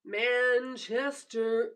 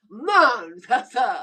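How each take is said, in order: First: Said in the usual way. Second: Manchester slow and loud, British a, no r; mock British accent. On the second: Shown as a demonstration. Asking the viewer if it's right, mock British. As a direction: say Manchester slowly like a Brit. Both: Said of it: "Is that how you say it?".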